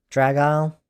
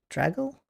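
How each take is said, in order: First: The name ends with an 'aisle' sound. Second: The name ends with a short 'ul' sound. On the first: The speaker calls it right. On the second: The speaker calls it wrong.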